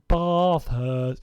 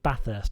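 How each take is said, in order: First: It is said with a southern English accent. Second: It is said with a northern English accent. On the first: The speaker calls it right. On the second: The speaker calls it wrong.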